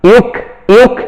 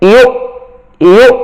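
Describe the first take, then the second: First: The syllable ends with an added k sound. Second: The syllable ends cleanly with no k sound. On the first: The speaker calls it wrong. "এরকম না" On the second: The speaker calls it right. "শেষে যেন আমার ক না হয়"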